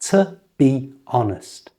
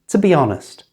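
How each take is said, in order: First: The phrase is said slowly and carefully. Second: The phrase is said quickly at natural speed. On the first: "So the whole thing is" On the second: "And at normal speed"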